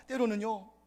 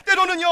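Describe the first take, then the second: First: Said in the usual way. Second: High, loud shouted phrase; shouting. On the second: Real, not acted. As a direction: cry it out with full force. (높고 크게 외치듯이)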